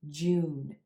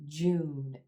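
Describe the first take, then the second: No difference in how they are said.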